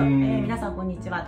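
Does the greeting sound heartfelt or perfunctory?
perfunctory. The greeting sounds mechanical, without real feeling. The greeting is said only as sound, without meaning it. The speaker calls it wrong. "音だけこんにちはって言っちゃう人結構多いんですよ"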